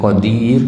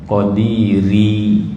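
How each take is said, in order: First: The word ends on the consonant r. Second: The word ends with an added final i vowel. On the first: This is the ordinary reading with a pause. The speaker calls it wrong. "bukan qadir dak lah" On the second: This fits the metre of the poem. The speaker calls it right. "Ri itu pun kena kena baca juga"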